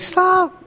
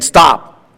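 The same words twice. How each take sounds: First: It is said in a timid, cracking voice. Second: It is said in a firm, confident voice.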